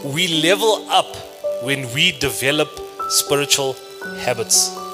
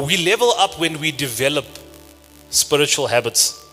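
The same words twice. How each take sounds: First: The sentence is said at a slow pace. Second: The sentence is said at a normal pace.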